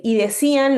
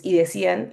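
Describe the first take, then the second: First: "y decían" read higher and a touch louder, stress on decían; pointed reading of "y decían"; quoted with emphasis. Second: Said in the usual way. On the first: Shown as a demonstration. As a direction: lift "y decían" up as a quoted heading, leaning on decían. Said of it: "lo puse abajo de "estaban". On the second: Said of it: "los que estaban asombrados decían".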